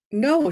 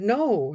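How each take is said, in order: First: High, caught-off-guard no; startled no. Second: Said in the usual way. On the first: Retold or imitated. Clerk jolted by the question, startled. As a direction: blurt it, taken aback. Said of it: "She kinda came to". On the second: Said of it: "Her whole demeanor changed".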